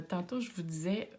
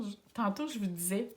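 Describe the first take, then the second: First: Said in the usual way. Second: Quebec accent. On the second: Shown as a demonstration. Astrologer to her Scorpio viewers, playful Quebec accent. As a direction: lightly put on a Québécois accent for "tantôt". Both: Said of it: "j'ai pris mon petit accent québécois".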